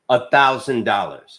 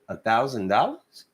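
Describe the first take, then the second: First: It is said as a statement, falling. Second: It is said as a question, rising.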